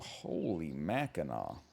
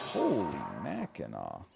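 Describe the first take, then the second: First: It is said in an ordinary speaking voice. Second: It is said in a booming sports announcer voice.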